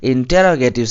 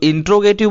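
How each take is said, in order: First: It begins with 'inter-ro', with every syllable. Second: It begins with 'intro', missing a syllable. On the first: The speaker calls it right. "आपको बोलना चाहिए इंटेरोगेटिव" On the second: The speaker calls it wrong. "कुछ लोग इंट्रोगेटिव बोलते हैं"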